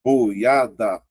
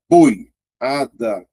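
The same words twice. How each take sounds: First: "Boiada" split into boi-a-da; syllables separated. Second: "boiada" drawn out very slowly, leaning on the O; stretched for stress. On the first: Teacher splitting "Boiada" into syllables for the class. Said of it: "vou separar". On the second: Teacher drawing out "boiada" to show the strong O. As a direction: drag out "boiada" and push the O. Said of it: "o O é mais forte". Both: Shown as a demonstration.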